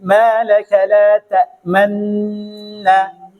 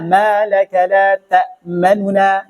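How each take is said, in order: First: The two n sounds merge into one doubled n. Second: A brief, hurried vowel separates the two n sounds. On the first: "Kalau ismam di sini adalah antum berikan isyarat tadi" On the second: "dipercepat sedikit, tidak sampai durasinya dua harokat"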